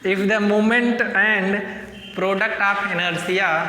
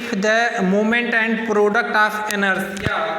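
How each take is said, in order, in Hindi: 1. यह वाक्यांश धीरे बोला गया है। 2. यह वाक्यांश जल्दी बोला गया है। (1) "अब हम धीरे बोलेंगे।" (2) "पूरे चैप्टर में जल्दी बोल देते हैं ना।"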